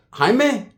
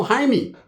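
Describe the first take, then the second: First: "Jaime" ending in an "eh" vowel; Jaime as HI-meh. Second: "Jaime" ending in an "ee" vowel; Jaime as HI-mee. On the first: Name echoed with other pronunciation. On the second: Name corrected with other pronunciation. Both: Retold or imitated.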